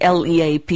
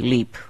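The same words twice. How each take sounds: First: It is spelled out as four separate letters. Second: It is pronounced as a single word. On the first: The speaker calls it wrong. "you don't say L-E-A-P" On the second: The speaker calls it right. "you say LEAP"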